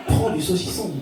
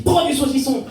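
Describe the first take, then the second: First: Understated demon giving an order; lightly voiced demon. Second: Higher-pitched insistent demon; second demon. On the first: Demon on the shoulder urging a dieter, lightly voiced. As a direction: tempt like a demon, without pushing. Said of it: "un gros démon sur l'épaule qui te dit". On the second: Acted. Second demon urging a dieter, high and insistent. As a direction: press the order like a pushy little devil. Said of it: "un autre démon qui te dit".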